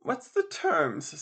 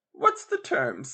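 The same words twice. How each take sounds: First: Said in the usual way. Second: Asked again in a louder key; louder repeat. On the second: Acted. Mrs Tuggs repeats her question to the landlady, louder. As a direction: raise the voice to be heard. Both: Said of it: "in a louder key".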